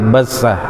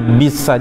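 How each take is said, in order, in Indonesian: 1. Vokal pertama adalah bunyi 'a'. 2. Vokal pertama adalah bunyi 'i'. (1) "yang betul adalah fathah di situ" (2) "jangan bi bisa, jangan ya, keliru kalau ada yang mengkasroh"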